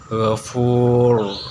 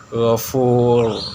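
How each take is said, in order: The two takes are said the same way.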